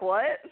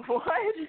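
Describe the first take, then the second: First: Said in the usual way. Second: Much higher, rising with a laugh; laughing disbelief. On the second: Retold or imitated. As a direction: echo it in amused disbelief. Repeats the reaction, laughing.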